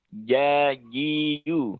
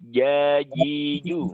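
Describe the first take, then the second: Both takes have the same delivery.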